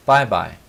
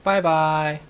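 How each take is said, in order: First: Bye-bye said short and even, falling at the end; a quick, level "bye-bye" like an adult would; casual grown-up "bye-bye", two light even syllables. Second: "bye-bye" drawn out slow and sing-song, higher; slow high childlike "bye-bye" with a lilt; childish bye-bye. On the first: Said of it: "the pronunciation of it is important". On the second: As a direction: say "bye-bye" like a small child waving. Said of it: "it sounds very childish". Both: Shown as a demonstration.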